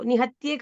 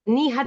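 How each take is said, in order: First: The word ends with an added 'e' vowel. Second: The word ends with a short 'a' sound. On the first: The speaker calls it wrong. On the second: The speaker calls it right.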